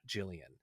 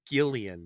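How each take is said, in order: First: The name begins with a soft J sound. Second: The name begins with a hard G sound. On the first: The speaker calls it wrong. "not Jillian" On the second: The speaker calls it right. "She's named Gillian"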